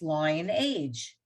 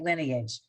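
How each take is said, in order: First: The first syllable sounds like 'lie', as in lion. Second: The first syllable sounds like 'lin', with a short vowel. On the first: The speaker calls it wrong. "why is it not pronounced lion age?" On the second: The speaker calls it right. "we just learned that we say it lineage"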